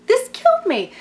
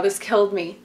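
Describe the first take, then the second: First: Much higher, gushing squeal; squealing repeat. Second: Said in the usual way. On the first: Real, not acted. Vlogger repeats her reaction to the father's line, squealing. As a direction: squeal it out, delighted and aghast. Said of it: "oh my God, this killed me". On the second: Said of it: "oh my God".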